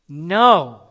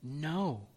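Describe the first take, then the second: First: It is said somewhat louder. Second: It is said at the softest level.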